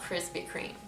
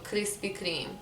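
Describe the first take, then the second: First: It is said with an American R sound. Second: It is said with a Lebanese R sound. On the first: "It's not Krispy Kreme" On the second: "we don't have the R like that in English, in Lebanese and Arabic, so Krispy Kreme"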